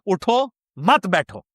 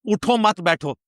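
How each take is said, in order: First: The pause comes after the first word. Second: The pause comes after the second word.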